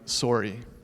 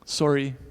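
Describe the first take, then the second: First: It is said in a Canadian accent. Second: The same.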